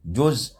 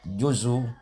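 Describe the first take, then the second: First: The word ends cleanly on the consonant z. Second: The word ends with a faint, partial u vowel.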